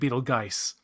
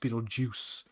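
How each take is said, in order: First: The name ends with a 'geist' sound. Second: The name ends with a 'juice' sound. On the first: The speaker calls it wrong. "it looks like Beetlegeist" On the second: The speaker calls it right. "It's supposed pronounced Beetlejuice"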